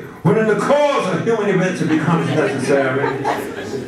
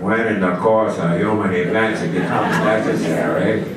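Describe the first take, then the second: First: It is said in a put-on preacher cadence. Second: It is said in a put-on cowboy drawl. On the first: "Or Doctor Martin Luther King would say" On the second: "if you do it like John Wayne would do it"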